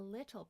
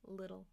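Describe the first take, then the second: First: The middle T is a clear T sound. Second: The middle T is a quick flap sound. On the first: This is a careful reading style. "I said little because I'm reading" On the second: This is a normal conversational style. "talking normally I would say little with a flap T"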